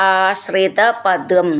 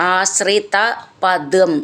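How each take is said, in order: Both takes have the same delivery.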